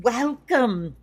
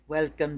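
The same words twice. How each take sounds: First: Put-on a loud, high 'welcome' in a hammy Scottish accent; bad Scottish accent. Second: Said in the usual way. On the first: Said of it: "you're gonna get to hear some bad Scottish accents". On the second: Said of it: "bad Scottish accents".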